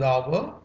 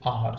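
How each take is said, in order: First: The vowel glides from ah toward oo. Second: The vowel is one long flat ah sound. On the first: "It is our" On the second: "as in a running sentence, it is R"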